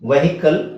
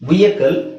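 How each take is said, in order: First: An h sound is heard in the middle. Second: No h sound is heard in the middle. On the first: "ತುಂಬಾ ಜನ ಇದನ್ನ ವೆಹಿಕಲ್ ಅಂತ ಹೇಳ್ತೀವಿ" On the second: "ವಿಯಕಲ್ ಅಂತ ಹೇಳ್ಬೋದು"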